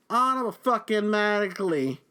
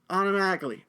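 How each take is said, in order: First: Auto-fucking-matically slowed and punched, each part drawn out; stressed infix. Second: Said in the usual way. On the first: Shown as a demonstration. Clerk retelling the shove, drawing out Auto-fucking-matically slowly.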